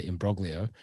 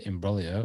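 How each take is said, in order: First: Imbroglio with a hard g, "im-BROG-lio"; plain Aussie imbroglio, g sounded; anglicised imbroglio. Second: Imbroglio with a silent g, "im-BRO-lio"; teasing Italian-style imbroglio; mock Italian imbroglio. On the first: Shown as a demonstration. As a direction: imbroglio said the English way, g sounded, rising end. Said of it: "or as I like to say". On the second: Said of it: "you tried to pronounce it with your best Italian, um, accent there".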